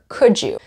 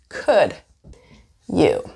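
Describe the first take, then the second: First: The d and y blend into a j sound. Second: The d and y sounds stay separate.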